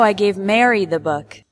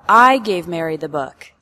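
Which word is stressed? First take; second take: Mary; I. First: The word "Mary" carries the strongest stress. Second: The word "I" carries the strongest stress. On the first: Mary, not another person, received it. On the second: The speaker, not someone else, gave it.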